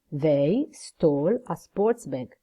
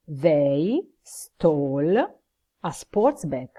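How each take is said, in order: First: "They stole a sports bag" said whole, slow, stress on "sports"; slow full sentence. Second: "they stole" very slow, then a pause before "a sports bag"; slow, word by word. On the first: Teacher gives the full model answer, slow and clear. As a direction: model answer in one slow, even phrase. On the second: Teacher builds the answer for students, very slow and chunked. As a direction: build the answer piece by piece, "stole" clearly stressed. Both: Shown as a demonstration. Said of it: "Voglio proprio il soggetto, il verbo e il resto frase".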